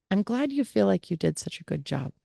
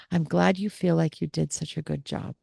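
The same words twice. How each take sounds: First: Soft, faster repeat of the gentle line; soothing reply. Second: Soft, careful non-agreement; soothing reply. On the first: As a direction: calmly repeat the careful reply. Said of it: "Notice I didn't agree with her". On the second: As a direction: say it gently without agreeing. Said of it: "I simply have to say something like". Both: Shown as a demonstration.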